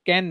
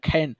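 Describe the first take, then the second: First: The first sound has no puff of air. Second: The first sound has a puff of air. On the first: The speaker calls it wrong. "ক্যান না খ্যান" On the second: The speaker calls it right. "ক্যান না খ্যান"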